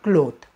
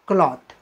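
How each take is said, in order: First: The vowel is a long 'oh' sound. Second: The vowel is an open 'aw' sound. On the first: The speaker calls it wrong. "Not क्लोथ" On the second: The speaker calls it right. "योग्य उच्चार आहे क्लॉथ"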